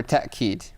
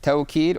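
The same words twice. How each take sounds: First: Put-on "ta'kid" with a glottal catch, ta'-KEED; "ta'kid" pronounced with a catch, no w-glide; ta'kid with hamza. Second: "tawkid" with a gliding first syllable, tow-KEED; "tawkid" pronounced with w, no catch. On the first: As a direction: say "ta'kid" with a short a cut off before the k. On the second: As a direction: say "tawkid" with an aw-glide before the k. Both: Shown as a demonstration. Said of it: "You can say either way".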